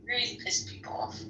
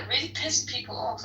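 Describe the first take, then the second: First: Soft whispered repeat of "Really pissed people off"; breathy whispered echo; whispered aside. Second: Said in the usual way. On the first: Real, not acted.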